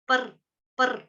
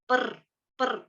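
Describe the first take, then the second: No difference in how they are said.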